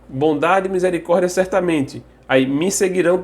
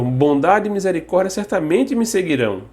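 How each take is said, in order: First: There is a pause after 'certamente'. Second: There is no pause after 'certamente'.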